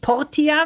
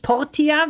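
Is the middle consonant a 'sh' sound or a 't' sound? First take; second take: t; t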